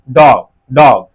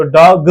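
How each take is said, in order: First: डॉग ending on g, no vowel after it; clean final g. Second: डॉग ग with a vowel added after g; extra final vowel. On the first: Teacher modelling the correct word, clean final g. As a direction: close डॉग firmly on a bare g. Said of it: "आखिरी वाला जो ग है कोई वावेल sound produce नहीं". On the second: Teacher rejecting the wrong form, extra final vowel. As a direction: end डॉग ग on "guh". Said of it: "तो डॉग ग नहीं". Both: Shown as a demonstration.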